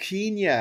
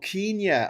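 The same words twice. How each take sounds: First: Kenya is said the old-fashioned British way. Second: Kenya is said the old-fashioned British way.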